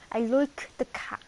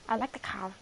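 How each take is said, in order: First: "like" said as loik with an Irish vowel; Irish I sound. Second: Said in the usual way. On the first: Shown as a demonstration. Showing viewers the Irish I, like as loik. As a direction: bend the I in "like" toward oi. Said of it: "the I's for the Irish is like a U". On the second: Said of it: "the I's for the Irish".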